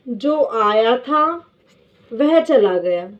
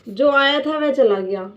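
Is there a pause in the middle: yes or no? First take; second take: yes; no. First: It is said with a pause in the middle. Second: It is said without a pause in the middle.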